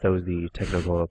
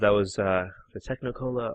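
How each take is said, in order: First: It is said in a close, announcer-style radio voice. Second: It is said in an ordinary speaking voice.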